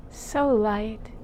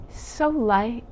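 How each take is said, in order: Both takes have the same delivery.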